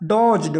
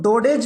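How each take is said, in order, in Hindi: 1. j की आवाज़ से पहले बीच का d साइलेंट होता है। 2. बीच का d एक अलग अक्षर की तरह बोला जाता है। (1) "ये पढ़ा जाएगा डॉज्ड" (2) "इसको डोडेज मत पढ़ना"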